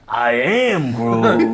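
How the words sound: It is said with strong passion.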